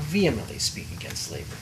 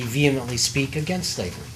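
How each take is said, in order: First: The phrase is said with strong added emphasis. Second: The phrase is said in a plain, even way.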